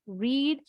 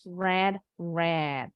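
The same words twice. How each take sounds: First: "Read" pronounced REED, long ee; first verb form "Read" rhyming with need; present-tense read. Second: "read, read" both pronounced RED, lower in pitch; past forms of read. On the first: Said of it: "bacanya read". ("Read" dibaca riid, bentuk pertama) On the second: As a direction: say each "read" like the colour red. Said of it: "Bentuk ketiganya juga sama". ("read, read" dibaca red, nada lebih rendah) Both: Shown as a demonstration.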